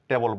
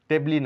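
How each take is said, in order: First: The word ends on the l sound. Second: A final vowel is sounded after the l. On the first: The speaker calls it right. "টেবল বলবো" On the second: The speaker calls it wrong. "টেবলি না বলে"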